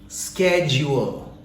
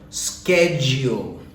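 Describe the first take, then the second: No difference in how they are said.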